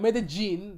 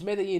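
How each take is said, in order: First: The double L sounds like an English J. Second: The double L sounds like an English Y. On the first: The speaker calls it wrong. "not Medellin. That's how people say it with their crazy accent" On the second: The speaker calls it right. "It's pronounced as Y"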